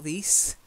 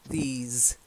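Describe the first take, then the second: First: It ends in a hissing s sound. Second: It ends in a buzzing z sound. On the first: The speaker calls it wrong. "not these" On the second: The speaker calls it right. "These is long E. And a z, sort of vibrating sound"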